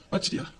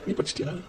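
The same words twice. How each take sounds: First: Soft, haughty "படிச்சிட்டியா?" asked with a superior air; snooty topper's question. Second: "நீ" hit hard, then a soft "படிச்சிட்டியா?" thrown back; retort stressing நீ. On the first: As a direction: ask "படிச்சிட்டியா?" quietly, looking down on her. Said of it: "என்ன பார்த்து கேட்கும்". (மெதுவாக, ஏளனமாக "படிச்சிட்டியா?" என்று கேட்பது) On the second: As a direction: turn the question back, leaning on "நீ". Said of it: "நான் திருப்பி கேட்பேன்". ("நீ" என்பதை அழுத்தி, திருப்பிக் கேட்பது) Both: Retold or imitated.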